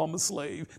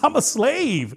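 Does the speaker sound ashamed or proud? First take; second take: ashamed; proud. First: It sounds reluctant and ashamed. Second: It sounds happy and proud.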